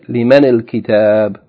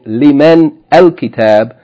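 First: An i vowel joins min to al-kitab. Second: The word min ends on a bare consonant. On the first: The speaker calls it right. "we say" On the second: The speaker calls it wrong. "instead of saying"

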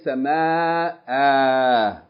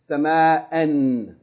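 First: The word ends with a long vowel. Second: The word ends with an n sound. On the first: The reader stops on this word. "But if you stop or pause on it, you say" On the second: The reading continues past this word. "If you keep reading, you say sama'an"

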